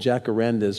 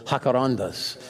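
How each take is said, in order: First: The word has an English pronunciation. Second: The word has a Spanish pronunciation.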